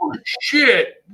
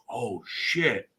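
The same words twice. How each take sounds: First: Loud, very high retold exclamation; mock alarmed outcry. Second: Understated retold oath, softer; subdued mock dismay. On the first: Acting out the man walking in, loud mock alarm. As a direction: blurt it out high in mock shock. Acting out the man's sudden realization. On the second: Retelling the man realizing it, understated mock dismay. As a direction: let the realization drop out softly. Same reaction retold again, much lower.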